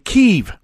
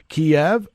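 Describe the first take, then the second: First: The name is said closer to one syllable, KEEV. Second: The name is said with two syllables, KEE-ev. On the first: The speaker calls it right. "that's the proper way to pronounce it" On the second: The speaker calls it wrong. "I'm sorry"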